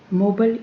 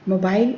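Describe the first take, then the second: First: It is said with an American accent. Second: It is said with a British accent.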